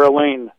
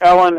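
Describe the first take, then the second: First: The name sounds like the woman's name Elaine. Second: The name sounds like the man's name Alan. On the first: This is how his name has come to be pronounced. "the pronunciation you'll hear there is Elaine Locke. I know it sounds like a woman" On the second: This is what his parents called him. "I refer to him as Alan Locke because that's, you know, what his parents nicknamed him"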